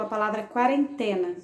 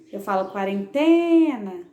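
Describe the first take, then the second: First: Said in the usual way. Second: Quarentena said slowly, the syllable "te" held long and loud; stress on quarentena. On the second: Shown as a demonstration. Teacher showing pupils the stressed syllable, holding "te" long. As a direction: stretch out the "te" in quarentena. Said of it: "o T foi o que eu fiquei, a sílaba que eu fiquei mais tempo".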